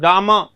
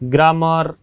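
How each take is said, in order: First: The final r sound is almost silent. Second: The final r sound is clearly pronounced. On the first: The speaker calls it right. "र को न के बराबर उसका उच्चारण किया जाता है" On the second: The speaker calls it wrong. "हम ऐसे पढ़ते हैं"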